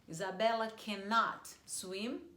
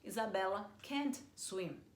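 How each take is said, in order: First: Cannot is said in full, two syllables. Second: Cannot is shortened to one syllable, can't.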